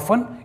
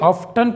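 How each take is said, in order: First: The t sound is silent. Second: The t sound is pronounced. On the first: The speaker calls it right. "यहाँ पर टी silent होगा, ये होगा ऑफन" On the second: The speaker calls it wrong. "कई लोग इसे ऑफ्टन पढ़ते हैं"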